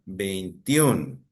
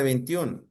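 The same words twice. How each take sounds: First: "Veintiún" drawn out on the final -ÚN; stress on final syllable. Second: Said in the usual way. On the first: Shown as a demonstration. Teacher shows class the tonic syllable, "Veintiún" stretched on ÚN. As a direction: sound out "Veintiún", leaning on the last syllable. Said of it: "¿Cuál es la sílaba tónica".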